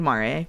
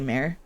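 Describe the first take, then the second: First: It is said the Latin way, unlike English mare. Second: It is said like English mare, the horse. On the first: This is the technically correct form. "It is technically Mare" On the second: This is the form many people use. "a lot of people say mare"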